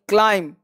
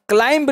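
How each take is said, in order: First: The final b sound is silent. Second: The final b sound is pronounced. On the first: The speaker calls it right. "उस बी को आपको silent रखना है" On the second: The speaker calls it wrong. "क्लाइंब नहीं"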